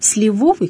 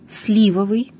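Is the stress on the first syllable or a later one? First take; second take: later; first. First: The stress falls on a later syllable. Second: The stress falls on the first syllable. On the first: The speaker calls it wrong. "Обычно говорят «сливовый компот»" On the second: The speaker calls it right. "ударение падает на первый слог"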